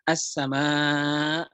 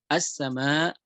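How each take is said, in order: First: The final vowel is held long. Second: The final vowel is held short. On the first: "harusnya dibaca empat harokat atau lima harokat" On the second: "dua harokat saja"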